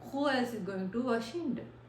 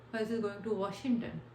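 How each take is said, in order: The two takes are said the same way.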